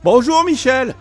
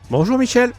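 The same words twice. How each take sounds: First: The greeting is said with exaggerated energy. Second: The greeting is said with natural, moderate energy.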